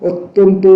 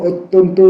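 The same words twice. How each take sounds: The two takes are said the same way.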